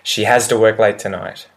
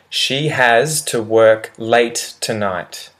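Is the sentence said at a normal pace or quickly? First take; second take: quickly; normal. First: The sentence is said quickly with reduced words. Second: The sentence is said at a normal, careful pace.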